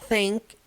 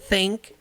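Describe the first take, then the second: Both takes have the same delivery.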